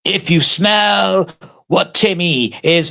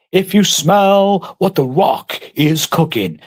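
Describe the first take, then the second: First: Slow, drawn-out catchphrase voice, mocking Timmy; mock wrestler catchphrase. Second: Slow, drawn-out wrestler catchphrase voice; milk it like a wrestling promo; The Rock catchphrase. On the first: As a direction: stretch it out like a ring promo. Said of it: "Timmy's is like". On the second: Retold or imitated. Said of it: "The Rock has got a good song".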